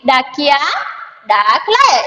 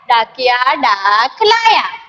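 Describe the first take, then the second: First: There is a pause after the first word. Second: It is read straight through without pausing.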